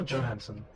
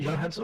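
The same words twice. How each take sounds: First: "Johansson" begun with an English J; J-sound pronunciation. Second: "Johansson" begun with a Y sound; Y-sound pronunciation. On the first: Asking how the name goes, "Johansson" with a hard J sound. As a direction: say "Johansson" as "Joe-hansson". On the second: Asking how the name goes, "Johansson" with a Y sound. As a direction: say "Johansson" as "Yo-hansson". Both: Shown as a demonstration.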